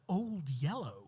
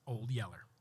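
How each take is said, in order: First: The second word ends with an 'oh' sound. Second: The second word ends with an 'er' sound. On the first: The speaker calls it right. "it should be" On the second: The speaker calls it wrong. "they were pronouncing it wrong"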